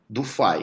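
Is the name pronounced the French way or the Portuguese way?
Portuguese. The name is said with Portuguese pronunciation. "Se você quiser falar em português, fala"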